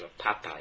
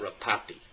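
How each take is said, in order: First: The name ends with a 'pie' sound. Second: The name ends with a 'pee' sound. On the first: The speaker calls it right. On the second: The speaker calls it wrong. "It's not"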